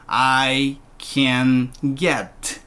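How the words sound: 'Can' is low and unstressed, below 'I'. It means the speaker is able to get it. The speaker calls it right. "can이 I보다 내려가면 좋아요"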